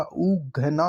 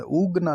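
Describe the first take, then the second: First: Slow "उघना" with aspirated gh; careful breathy gh in "उघना"; correct pronunciation. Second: "उगना" as oog-na, plain g; unaspirated g in "उगना"; wrong pronunciation. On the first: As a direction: spread "उघना" into oo-gha-na. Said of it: "उघना होता है". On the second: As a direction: say "उगना" in two syllables. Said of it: "उगना नहीं होता". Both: Shown as a demonstration.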